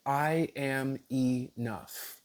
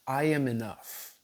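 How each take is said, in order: First: "I am enough" very slowly, each word drawn out; deliberate affirmation. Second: Said in the usual way. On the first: Shown as a demonstration. Teacher repeating a sample intention for viewers, slow deliberate affirmation.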